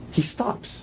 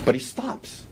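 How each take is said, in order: First: Hushed, pointed repeat for the jury; whispered emphasis. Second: Said in the usual way. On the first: Real, not acted. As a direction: whisper it, higher, the point sinking in.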